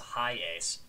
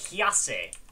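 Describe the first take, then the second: First: It sounds like the English words high ace. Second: It does not sound like high ace. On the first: The speaker calls it wrong. "clearly that says high ace. Nuh-uh" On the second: The speaker calls it right. "it's how you're supposed to pronounce that"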